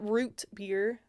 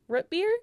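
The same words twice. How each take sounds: First: The vowel in root is long and careful. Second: The vowel in root is short. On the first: "I feel like I'm over enunciating if I say it like that" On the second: "it's just how I say it"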